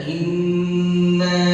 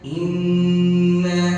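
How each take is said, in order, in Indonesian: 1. Bunyi sengau n dibaca panjang. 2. Bunyi sengau n dibaca panjang.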